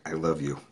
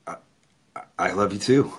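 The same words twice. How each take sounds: First: Said in the usual way. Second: Stammering, rising to a question; halting reply, caught off guard; surprised. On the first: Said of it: "it took me by surprise". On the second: Retold or imitated.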